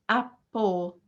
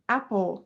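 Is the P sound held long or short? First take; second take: long; short. First: The P sound is held long, doubled. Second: The P sound is short, a single consonant. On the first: The speaker calls it wrong. "which we cannot pronounce as apple" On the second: The speaker calls it right. "So we say it like just one P"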